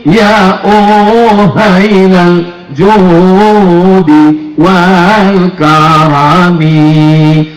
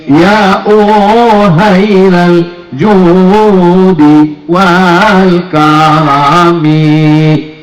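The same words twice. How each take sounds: No difference in how they are said.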